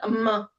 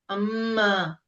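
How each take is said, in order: First: The sound is cut short, not drawn out. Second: The sound is drawn out for an extra count. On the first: The speaker calls it wrong. "So not amma" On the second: The speaker calls it right. "So there's a mud. one count you'll pull"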